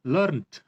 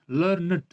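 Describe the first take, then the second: First: Learned said as one syllable, lurnt. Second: Learned said as two syllables, LUR-nid. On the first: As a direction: end Learned straight on a t, no extra vowel. (Learned को एक ही हिस्से में, लर्न्ट बोलें) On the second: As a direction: sound the -ed of learned as its own syllable. (learned को दो हिस्सों में, लर्-नेड बोलें) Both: Shown as a demonstration. Teacher contrasts two pronunciations.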